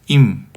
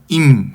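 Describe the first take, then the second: First: The word begins with a weak, soft onset. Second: The word begins with a strong, forceful onset. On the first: It means if. "만약이라고 하는 임은 약하게 발음하고" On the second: It means with. "함께라고 말하는 임은 강하게 발음"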